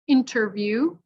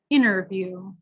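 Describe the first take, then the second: First: The T after N is clearly pronounced. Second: The T after N is dropped. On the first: The speaker calls it right. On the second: The speaker calls it wrong.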